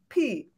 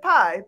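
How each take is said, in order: First: The name is said with an 'ee' vowel. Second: The name is said with an 'eye' vowel. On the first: The speaker calls it right. "pronounced P" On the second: The speaker calls it wrong. "I thought it said pie"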